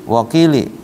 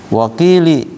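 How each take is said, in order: The two takes are said the same way.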